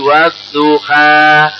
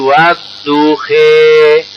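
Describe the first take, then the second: First: The word ends with an open 'a' vowel. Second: The word ends with a leaning 'e' vowel. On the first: The final letter is not read as a ya. "karena tidak dibaca ya menjadi wadduha" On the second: This is the imala reading style. "Karena ada bacaan imala menjadi wadduhe"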